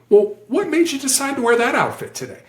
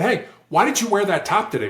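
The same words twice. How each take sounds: First: High, lilting, non-accusing question; softer question. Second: Higher-pitched, challenging question; accusatory why question. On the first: Negotiator rephrasing the why question, gently curious. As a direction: ask it lightly, with a high curious lift. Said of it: "That's a softer question". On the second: Negotiator demonstrating a why question, accusatory. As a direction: put them on the spot with the why. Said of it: "why questions sound for us accusatory". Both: Shown as a demonstration.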